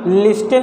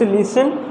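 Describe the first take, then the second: First: The t sound is pronounced in the middle. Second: The t sound is silent in the middle. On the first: The speaker calls it wrong. "लिस्टन नहीं है" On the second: The speaker calls it right. "It's लिसन, इसमें टी letter silent है"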